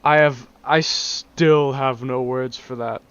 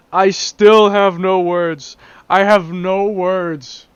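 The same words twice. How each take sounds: First: Said in the usual way. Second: Louder, slow, drawn-out disbelief; exasperated. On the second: Real, not acted. Vlogger baffled by a car model, slow exasperated outburst. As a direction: spell out each word in exasperation.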